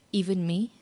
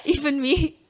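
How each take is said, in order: First: Said in the usual way. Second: "Even me?" higher, choked with real tears and a laugh; crying while laughing. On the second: Real, not acted. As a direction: let the tears break into "Even me?". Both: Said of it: "you make me cry".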